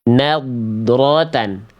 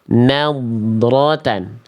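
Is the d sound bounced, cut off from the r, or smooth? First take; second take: smooth; smooth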